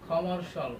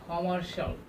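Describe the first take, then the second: Both takes have the same delivery.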